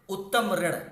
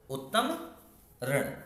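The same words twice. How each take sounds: First: Said in the usual way. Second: उत्तम and ऋण said as two separate words with a pause between; teacher breaking the compound into parts; split apart. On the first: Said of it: "अब देखिए इसमें से ऋतु आ गया". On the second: Shown as a demonstration. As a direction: pause after उत्तम, then ऋण on its own. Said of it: "अब देखिए ऋण".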